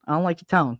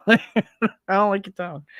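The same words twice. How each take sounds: First: Said in the usual way. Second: Light playful echo of the stern line; half-joking stern repeat; mock stern echo. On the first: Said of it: "It's always". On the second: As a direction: tease it back in a mock stern voice.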